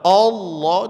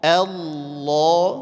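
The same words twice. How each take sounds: First: The first vowel sounds rounded like o. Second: The first vowel is thin, lips smiling. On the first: The speaker calls it wrong. "enggak boleh dibaca" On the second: The speaker calls it right. "senyum hamzahnya"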